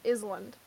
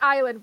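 First: The s in the word is pronounced. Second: The s in the word is silent. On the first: The speaker calls it wrong. "it reads it as Island" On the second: The speaker calls it right. "I say island"

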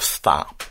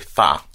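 First: The word begins with a clear s sound. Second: The word begins with a th-like sound. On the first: The speaker calls it right. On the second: The speaker calls it wrong.

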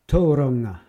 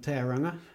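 First: The name is said with Māori vowels and sounds. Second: The name is said with anglicized English vowels. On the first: The speaker calls it right. "Another 10 out of 10 performance" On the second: The speaker calls it wrong. "the less PC way to pronounce the word"

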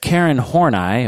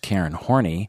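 First: The surname has its standard pronunciation. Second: The surname has an altered pronunciation. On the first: The speaker calls it right. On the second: The speaker calls it wrong.

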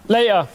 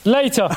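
First: The t is dropped, Cockney style. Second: The t in the middle is clearly pronounced.

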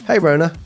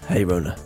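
First: It is said in a normal voice. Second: It is said in a gruff voice.

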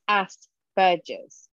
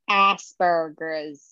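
First: It is pronounced the English way. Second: It is pronounced the American way. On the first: "how the English pronounce it" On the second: "All of our listeners in America and North America"

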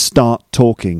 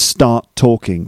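First: A small gap is held before talking. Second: The same.

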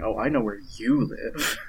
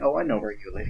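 First: The word you is strongly stressed. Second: It is said with no special stress on you.

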